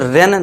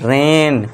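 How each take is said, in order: First: The vowel is short and clipped. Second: The vowel is slightly stretched and longer. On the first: The speaker calls it wrong. "इसे रेन नहीं पढ़ना" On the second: The speaker calls it right. "थोड़ा सा खींचना है"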